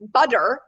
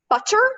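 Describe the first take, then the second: First: The middle consonant is a clear d. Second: The middle consonant is a clear t. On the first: "Is it a D?" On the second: "the sound in butter is a T"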